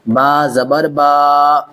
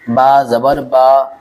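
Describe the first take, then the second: First: The final vowel is long and drawn out. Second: The final vowel is short and clipped. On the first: The speaker calls it wrong. "ऐसा खींचना नहीं है" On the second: The speaker calls it right. "बस"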